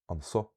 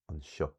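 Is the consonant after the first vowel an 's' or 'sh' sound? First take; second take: s; sh. First: It is said with a plain s sound. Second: It is said with a sh sound. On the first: This is the speaker's own learned dialect form. "you can tell a big difference with the first three" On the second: This is the form used outside Munster. "outside of Munster. Those are usually"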